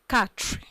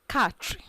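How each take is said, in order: No difference in how they are said.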